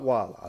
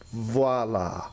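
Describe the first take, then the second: First: The word begins with a W sound. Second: The word begins with a V sound. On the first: The speaker calls it wrong. "not voila. Don't say voila" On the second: The speaker calls it right. "It's pronounced with a V sound"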